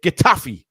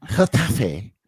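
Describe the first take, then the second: First: Getafe with a hard k and a flat English ending, louder. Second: Getafe with a rasped Spanish g and open final e; mock-posh Spanish Getafe, lower. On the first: Shown as a demonstration. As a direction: Getafe the blunt English way, kitta-fee. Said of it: "Why don't you just say it how we say it?". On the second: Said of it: "this is what I mean about him being a posh kid".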